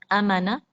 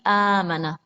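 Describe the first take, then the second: First: The first vowel is said short. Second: The first vowel is held for two counts. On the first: The speaker calls it wrong. "bukan amana" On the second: The speaker calls it right. "Awalnya ini ada panjang. Panjangnya dua harakat saja"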